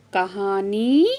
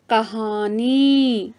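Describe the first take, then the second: First: Said in the usual way. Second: कहानी stretched out very slowly, syllable by syllable; slow demo word. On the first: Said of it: "कहानी, कहानियाँ". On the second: Shown as a demonstration. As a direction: spell out कहानी slowly for the class. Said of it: "तीसरा शब्द है". (बहुत धीमे, शब्दांश-दर-शब्दांश)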